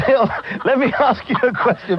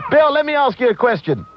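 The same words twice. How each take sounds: First: Real laughter breaking through, pitch raised; trying to ask but cracking up with laughter; laughing. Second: Said in the usual way. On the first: Real, not acted. Host laughs at caller's joke while asking, real laughing.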